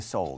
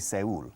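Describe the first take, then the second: First: It is pronounced the English way. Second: It is pronounced the Spanish way. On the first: "In English we say Seoul" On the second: "here you say Seoul"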